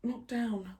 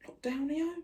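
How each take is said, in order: First: "Lockdown" softly, with a falling end; falling statement. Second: "yo" rising high as a question. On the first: Vlogger correcting own slang, falling tune on "Lockdown". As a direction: settle "Lockdown" downward, as a plain correction. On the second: Vlogger querying own slang, questioning rise on "yo". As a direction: query "Lockdown, yo?" softly, pitch climbing on "yo". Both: Real, not acted.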